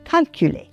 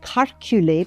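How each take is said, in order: First: The first syllable ends with an L sound. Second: The first syllable ends with an R sound. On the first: "plutôt que calculer" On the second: "Il y a des gens qui disent calculer"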